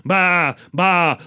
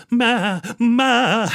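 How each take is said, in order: First: Short, plain "ba" bleats; ordinary sheep bleat. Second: High, dainty "ma" bleats; refined ewe bleating high; elegant sheep bleat. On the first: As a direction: imitate a common sheep. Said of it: "all the other sheep, they go". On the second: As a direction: imitate a soft, elegant sheep. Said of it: "she was soft and she was elegant". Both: Retold or imitated.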